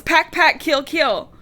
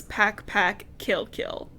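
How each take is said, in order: First: Panicked yell. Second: Faint, breathy near-whisper of a wounded cat; barely able to get the words out; hushed, almost voiceless chant; weak murmur. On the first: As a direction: shout it like a waking nightmare. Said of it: "she yells". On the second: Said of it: "she just starts to speak a little". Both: A narrator's reading.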